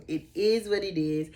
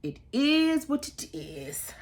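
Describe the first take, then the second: First: Said in the usual way. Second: Drawn out shrug. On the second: Real, not acted.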